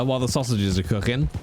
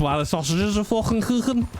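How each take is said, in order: First: Said in the usual way. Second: High-pitched, hammed-up Scouse accent. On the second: Streamer slips into Scouse about his late-night cooking, hammed-up Scouse accent. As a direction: go broad Scouse, pitched well up. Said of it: "I don't know why I went scouse".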